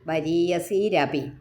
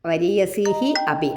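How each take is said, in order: First: The words join with an r sound between them. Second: The words are split with an h-like breath.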